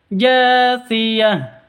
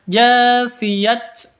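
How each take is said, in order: First: The word ends with an h sound. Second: The word ends with a t sound. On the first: The speaker calls it right. "tapi jasiyah" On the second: The speaker calls it wrong. "bukan dibaca jasiyat"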